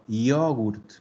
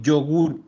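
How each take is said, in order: First: The word ends with a clearly marked t sound. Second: The word ends without a final t sound. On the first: This is the Italian way of saying it. The speaker calls it right. "Y bien marcada la T" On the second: This is the Spanish way of saying it. The speaker calls it wrong. "nosotros decimos yogur"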